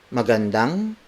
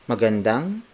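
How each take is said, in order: No difference in how they are said.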